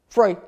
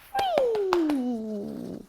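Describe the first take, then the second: First: The word is said flatly, like the other cues. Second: The word is said with lively, upbeat intonation. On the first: It sounds the same as the other cue words. The speaker calls it wrong. "If you just sort of go" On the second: It signals a release that sounds distinct from other cues. The speaker calls it right. "use a free intonation in your voice"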